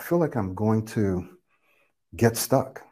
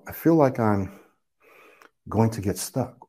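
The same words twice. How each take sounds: First: Only the words from 'get' onward flow together on one smooth breath. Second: The words from 'going' onward flow together on one smooth breath. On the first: "I airflow linked, get stuck" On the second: "I airflow linked, going to get stuck"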